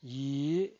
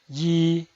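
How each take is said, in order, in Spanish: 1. El tono sube de medio a alto. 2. El tono se mantiene alto y plano. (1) "El segundo tono es ascendiente" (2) "El primer tono es alto y sostenido"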